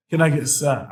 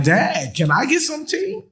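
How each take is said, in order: First: Said in the usual way. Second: High, sing-song ask for tea; childish plea. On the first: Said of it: "Y'all, can I". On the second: Pretend. Speaker playfully begs Dad for tea in a high childish voice. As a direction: beg like a kid asking Dad.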